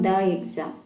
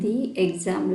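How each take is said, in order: First: 'The' is said with a short 'uh' vowel. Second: 'The' is said with a long 'ee' vowel. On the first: The speaker calls it wrong. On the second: The speaker calls it right.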